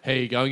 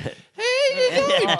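First: It is said in a normal voice. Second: It is said in a put-on high voice.

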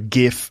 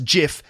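First: The word starts with a hard G sound. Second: The word starts with a soft G sound. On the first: "has a G sound" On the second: "It's a soft G pronounced JIF"

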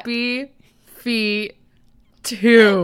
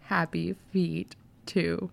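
First: It is said loudly. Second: It is said at normal volume.

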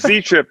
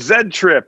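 First: The letter is pronounced 'zee'. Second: The letter is pronounced 'zed'. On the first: The speaker calls it right. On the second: The speaker calls it wrong.

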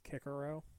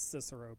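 First: The name begins with a hard K sound. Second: The name begins with a soft S sound. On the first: "I will refuse to pronounce it as Kikero" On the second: "I will say the soft C"

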